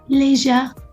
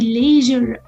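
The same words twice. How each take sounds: First: It is said with a British accent. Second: It is said with an American accent. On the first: "British pronunciation"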